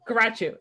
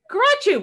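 First: Said in the usual way. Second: Garachu called out high and loud; excited call. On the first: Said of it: "I think it's our word now". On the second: Retold or imitated. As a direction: sing out Garachu brightly, pitched way up. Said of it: "We're like".

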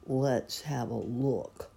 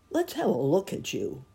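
First: Slow, lightly voiced gloomy donkey; a hint of dejected drone. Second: Lightly voiced helpful bear, higher; a hint of eager bear. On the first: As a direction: say it slowly and wearily. Gloomy Eeyore checks his tail. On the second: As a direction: offer help in a higher voice. Pooh offers help, against Eeyore's drone. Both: A narrator's reading.

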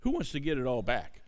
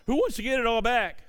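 First: Said in the usual way. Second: Calling out higher to the crowd; rallying call. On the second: Real, not acted. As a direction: rouse the congregation. Repeated ask, higher and rising.

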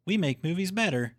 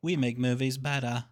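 First: Higher, American "better" with a clear final r; American accent. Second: "better" ending in an open "ah", no r; odd accented "better". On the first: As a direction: imitate a plain American "better", r sounded. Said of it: "Now you're just doing an American accent". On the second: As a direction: say "better" as "bettah", imitating the old line. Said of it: "instead of the". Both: Retold or imitated.

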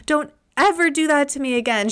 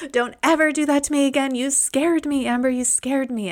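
First: High, fast mock scolding from mom; a mother telling off her kid in relief; quick mock reprimand. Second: High, fast mock scolding from mom; mother chiding her child after a fright; relieved mom repeating the scolding. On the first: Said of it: "she was like". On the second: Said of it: "She's like".

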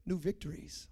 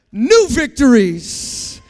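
First: Soft, low reveal; hushed emphasis. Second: Very loud, drawn-out preacher shout; booming proclamation. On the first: Preacher asking congregation to listen to this, hushed emphasis. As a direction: drop right down to announce NEW VICTORIES quietly. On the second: Preacher proclaiming new victories to congregation, booming proclamation. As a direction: belt out NEW VICTORIES slowly. Same words then proclaimed aloud. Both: Real, not acted.

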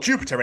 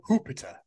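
First: Said in the usual way. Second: Jupiter said with an H, as HOO-piter; altered first sound. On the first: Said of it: "it's not called Jupiter anymore". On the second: Acted. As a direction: say Jupiter as "Hoopiter". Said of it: "It's called Jupiter".

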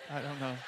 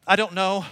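First: Softer, deflated admission; quietly stumped; acted helplessness. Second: Loud, higher helpless outburst; mock exasperated and loud; acted exasperation. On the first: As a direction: drop it softly, as if giving up. Stumped answer repeated, deflated. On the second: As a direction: throw up a loud, stumped answer. Acting out being stumped by grandson.

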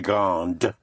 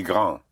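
First: GRANDE ending on a sounded D; pronounced final consonant. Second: GRAND ending without the D sound; silent final consonant. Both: Shown as a demonstration. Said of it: "you pronounce the consonant".

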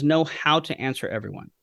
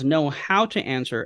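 First: Said in the usual way. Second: Slower, with the weight on "how" as in the manner, not "what"; stress on how. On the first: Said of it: "Paul being very particular with his words". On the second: Shown as a demonstration. Pastor stressing Paul's exact wording, weight on "how". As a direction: lean on "how" and draw the phrase out. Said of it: "as opposed to what to answer".

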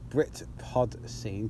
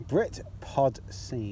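First: Slow, careful Britpod Scene; said slowly. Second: Said slowly. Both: Shown as a demonstration. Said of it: "'Cause I gotta say it slowly".

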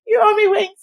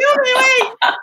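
First: Tearful tease. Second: Laughing through tears. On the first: Said while crying to sister. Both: Retold or imitated.

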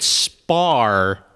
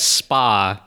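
First: Slow "spar" with a pronounced final R. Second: Slow "spa", open "ah" at the end; SPA without R. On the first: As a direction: stretch "spar" and land on the R. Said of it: "Mike literally said spar". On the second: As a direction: stretch "spa" and leave off any R. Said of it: "he took it as spa". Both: Shown as a demonstration.

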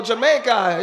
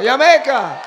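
First: Jamaica said the English way, "juh-MAY-kuh"; English pronunciation. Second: Loud, high Jamaican-style "Yah-MAY-kah"; Jamaican-style pronunciation. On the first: Names Jamaica in English first. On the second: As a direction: shout Jamaica with a Y, playing Jamaican. Repeats it with Y sound. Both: Shown as a demonstration.

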